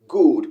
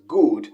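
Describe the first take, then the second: The two takes are said the same way.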